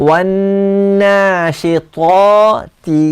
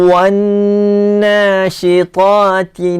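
The two takes are said the same way.

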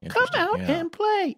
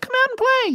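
First: It is said with a formal, old-fashioned cadence. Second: It is said with a casual, modern cadence. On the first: It sounds like a child from long ago. "the cadence of somebody that lived a long time ago" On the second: It sounds like a child of today. "which today a kid might be like"

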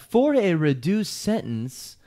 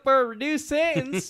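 First: It is said in a plain, neutral voice. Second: It is said in a put-on hillbilly accent. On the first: "I'm sure he didn't sound like that" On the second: "I'm sure this guy sounds like a fucking hillbilly"

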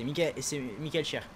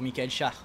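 First: The surname is said with an 'e' vowel. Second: The surname is said with an 'a' vowel. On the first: "Ça se prononce cher" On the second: "je vais continuer à dire char"

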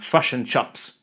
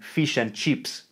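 First: An exaggerated Kiwi accent with central, schwa-like vowels. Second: An exaggerated Australian accent with raised, ee-like vowels. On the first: This mocks how New Zealanders speak. "accusing Kiwis of saying fush and chups" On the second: This mocks how Australians speak. "Kiwis love to accuse Aussies of saying fish and cheeps"

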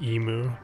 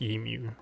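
First: The word is said with an American pronunciation. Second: The word is said with a non-American pronunciation. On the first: The speaker calls it wrong. "Americans say emu" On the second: The speaker calls it right. "It's pronounced emu. Get it right"

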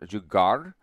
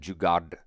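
First: The word ends with an R sound. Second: The word ends with a D sound. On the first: The speaker calls it wrong. "Is it pronounced with an R sound" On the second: The speaker calls it right. "Jugad, D sound"

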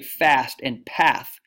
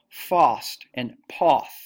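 First: The vowels in 'fast' and 'path' are said like the vowel in 'cat'. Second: The vowels in 'fast' and 'path' are said like the vowel in 'father'. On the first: This is how Americans say it. "We say fast and path" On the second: This is how people in England say it. "In England, they say it more like fast and poth"

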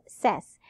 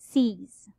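First: The syllable has a short "e" vowel, "sez". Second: The syllable has a long "ee" vowel, "seez". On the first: The speaker calls it wrong. "it's not pronounced as SES" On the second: The speaker calls it right. "it's C's"

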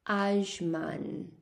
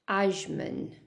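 First: The name is pronounced the Arabic way. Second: The name is pronounced the English way. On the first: "In Arabic, it's called" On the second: "And in English"

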